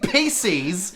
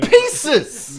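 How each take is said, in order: First: The second syllable sounds like 'sees'. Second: The second syllable sounds like 'siz'. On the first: The speaker calls it wrong. "it was never fucking P Cs in the first place" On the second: The speaker calls it right. "It was always pieces!"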